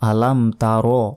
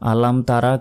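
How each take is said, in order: First: The last word ends in a rounded o sound. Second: The last word ends in an open a sound. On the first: The speaker calls it right. "এখানে বলতে হবে আলাম তারো" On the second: The speaker calls it wrong. "এটা কিন্তু সম্পূর্ণ ভুল"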